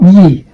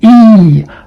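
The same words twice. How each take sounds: First: The vowel is cut short. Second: The vowel is held long. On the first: The speaker calls it wrong. "not E" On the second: The speaker calls it right. "this one is a long E sound"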